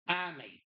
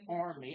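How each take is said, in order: First: It is said in a Massachusetts accent. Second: It is said in a general American accent. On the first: "I'm from Massachusetts, so ... I say Army" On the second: "I don't say Army"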